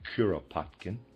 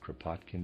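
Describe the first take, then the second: First: The name has a vowel between K and R. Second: The name begins with a K-R cluster, no vowel. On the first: The speaker calls it right. "It's Kuropatkin" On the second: The speaker calls it wrong. "I pronounced it Kropotkin before, readers aside, that's incorrect"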